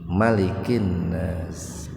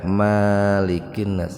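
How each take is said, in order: First: The vowel after the m is kept short. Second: The vowel after the m is drawn out long. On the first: The speaker calls it right. "An-Nas itu mimnya dibaca pendek" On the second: The speaker calls it wrong. "enggak malikin nas, enggak begitu"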